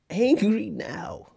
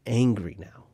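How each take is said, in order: First: Mock angry. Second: Said in the usual way.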